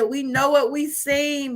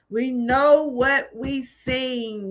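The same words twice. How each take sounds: First: Said in the usual way. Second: Each word of We know what we seen laid down slowly, weight on know; slow it right down and lean on know; quoting the doctor with solemn, slow emphasis; slow emphatic repeat. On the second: Retold or imitated.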